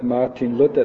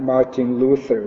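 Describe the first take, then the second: First: The vowel in Luther is a pure vowel. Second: The vowel in Luther is a gliding diphthong. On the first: The speaker calls it right. "but Martin Luther, because the Germans don't have the diphthong for Luther" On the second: The speaker calls it wrong. "Not Martin Luther"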